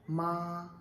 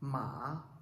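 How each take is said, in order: First: The pitch stays high, long and level. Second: The pitch dips down and then rises. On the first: "First tone you must have to pronounce long and flat" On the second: "third tone it goes down and goes up like a triangle"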